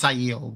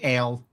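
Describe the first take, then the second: First: The word sounds like 'eye-el'. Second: The word sounds like 'ale'. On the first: The speaker calls it right. "I know it's Aiel" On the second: The speaker calls it wrong. "I still say ale in my head"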